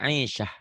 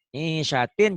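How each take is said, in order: First: The word ends with an -h sound. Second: The word ends with a -tin sound. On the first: The reader stops on this word. "kalau dihentikan jadi ha" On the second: The word is read in connected speech. "kalau hidup"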